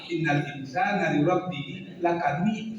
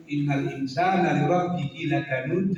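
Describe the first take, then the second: First: Minang reading, lakanud changed at the ending; Minang accent. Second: Lakanud with a voiced d ending; correct final d. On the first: Teacher showing what not to do, Minang accent on lakanud. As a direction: alter the end of lakanud the Minang way. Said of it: "karena kita orang Minang kita rubah". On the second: Teacher showing the written reading, final d kept in lakanud. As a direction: keep the d at the end of lakanud. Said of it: "baca lakanud". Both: Shown as a demonstration.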